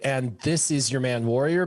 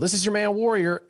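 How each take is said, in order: First: It is said at a normal, careful speed. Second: It is said very fast, words running together.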